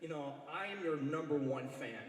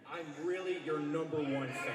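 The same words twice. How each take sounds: First: Said in the usual way. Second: Really leaned on, falling; stress on really. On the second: Real, not acted. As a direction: insist hard on really.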